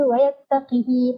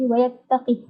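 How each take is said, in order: First: The h has a lengthened i vowel. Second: The h has no vowel after it. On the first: "akan baca wayattaqihi panaslah" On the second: "Ibnu Wardan akan iskankan ha"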